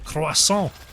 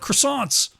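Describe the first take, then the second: First: It is said with a French pronunciation. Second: It is said with an English pronunciation. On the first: The speaker calls it right. "you got the rolling R, ... the just fading syllable on the end" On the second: The speaker calls it wrong. "That'd be the ang anglicized"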